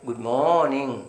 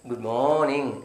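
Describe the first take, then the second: No difference in how they are said.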